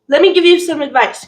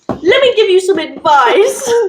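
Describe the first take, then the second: First: It is said in the speaker's ordinary accent. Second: It is said in a British accent.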